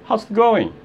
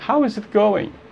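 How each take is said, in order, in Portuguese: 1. É dita rápido, as palavras se juntam. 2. É dita devagar, cada palavra separada. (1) "se você falar rápido" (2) "Se você falar devagar"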